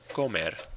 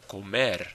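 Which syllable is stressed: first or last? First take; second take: first; last. First: The stress is on the first syllable. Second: The stress is on the last syllable. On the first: The speaker calls it wrong. "We don't say comer" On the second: The speaker calls it right. "The stress is on the, the syllable ending in the vowel and R"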